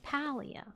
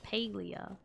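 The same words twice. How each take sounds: First: The first syllable sounds like 'pal'. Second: The first syllable sounds like 'pale'. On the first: The speaker calls it right. "It's Palia. ... They're pal cats" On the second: The speaker calls it wrong. "Calling it Palia is objectively wrong. ... they're not pale cats"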